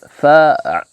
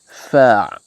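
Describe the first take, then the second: First: The vowel is a clear, open a. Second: The vowel is a clear, open a.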